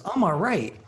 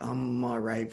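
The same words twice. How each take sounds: First: High, loud, swooping "I'm all right"; contrasting all right. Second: Said in the usual way. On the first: Shown as a demonstration. Man showing how his friend could have answered, high and emphatic. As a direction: push "I'm all right" up high and louder, falling at the end. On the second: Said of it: "there's a difference between".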